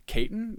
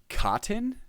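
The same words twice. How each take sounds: First: "Caton" said KAY-tin, pitched high as a question; high, questioning "Caton", rhyming with "Satan"; chitin as Caton. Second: "Cotton" as a questioning guess at chitin. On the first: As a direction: try "Caton" with a long A, unsure. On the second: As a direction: say "Cotton" with an open first vowel, unsure. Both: Shown as a demonstration. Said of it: "How is that pronounced?".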